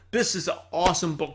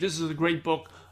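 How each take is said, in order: First: It is said with lively excitement. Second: It is said hesitantly, without excitement.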